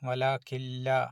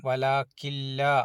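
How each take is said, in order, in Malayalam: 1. n ശബ്ദം ഇരട്ട l-ൽ ലയിക്കുന്നു. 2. n ശബ്ദം ഇരട്ട l-ൽ ലയിക്കുന്നു.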